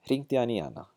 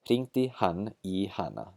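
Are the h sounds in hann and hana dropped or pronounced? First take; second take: dropped; pronounced. First: The h sounds in hann and hana are dropped. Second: The h sounds in hann and hana are pronounced. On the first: "drop the how in both hann and hana" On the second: "That's the very careful pronunciation"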